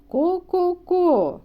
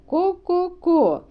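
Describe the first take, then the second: No difference in how they are said.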